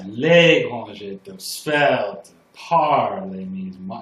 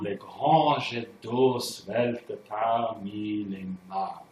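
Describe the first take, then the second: First: The stresses fall on normally unstressed syllables. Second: The stresses fall on the usual spoken syllables. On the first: "It's like all the wrong syllables are the downbeats" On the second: "That's how you normally say it"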